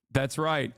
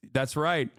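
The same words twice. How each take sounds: The two takes are said the same way.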